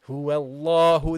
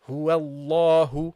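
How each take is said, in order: The two takes are said the same way.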